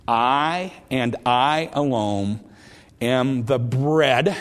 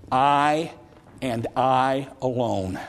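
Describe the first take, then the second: First: I and I alone am the bread, drawn out slowly, each I hit hard; slow emphatic repeat. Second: I and I alone, with the word I leaned on, a bit slow; emphatic I. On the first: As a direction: stretch every word, pressing on I. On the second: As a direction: stress each I, then alone. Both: Shown as a demonstration. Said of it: "It's a Greek emphatic".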